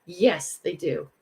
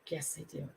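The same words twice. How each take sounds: First: Said in the usual way. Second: "Yes, they do" repeated much softer, almost under the breath; soft echo. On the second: Shown as a demonstration. Agreeing with viewers about people believing the hater, quietly. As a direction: echo your own words quietly to yourself.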